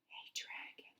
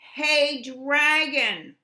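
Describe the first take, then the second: First: It is whispered very softly. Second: It is shouted very loudly.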